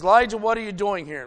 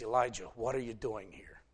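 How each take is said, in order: First: Loud, fast divine demand; God's voice demanding an answer from Elijah; booming challenge. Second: Softer, lower gentle asking; God asking Elijah gently; soft question. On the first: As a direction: call him out loudly and quickly. God confronts the distraught prophet. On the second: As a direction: ask him quietly this time. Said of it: "a voice, still and small". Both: Retold or imitated.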